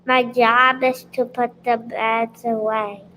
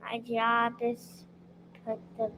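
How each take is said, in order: First: Clear, projected answer; speaking loud. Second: Soft, halting answer; too quiet. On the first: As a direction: speak out so everyone hears. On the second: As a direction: start quietly and pause midway. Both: Real, not acted. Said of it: "speak loud".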